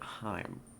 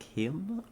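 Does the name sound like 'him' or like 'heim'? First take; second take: heim; him. First: The name is said to sound like heim. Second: The name is said to sound like him. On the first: The speaker calls it wrong. "for a long time I said it Heim" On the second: The speaker calls it right. "you said the correct way first, like him?"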